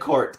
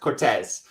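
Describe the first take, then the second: First: The name is said as one syllable. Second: The name is said as two syllables. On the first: This is how many people elsewhere say it. The speaker calls it wrong. "a lot of other people say Courts" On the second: This is how people in the South say it. The speaker calls it right. "It's actually Cortez"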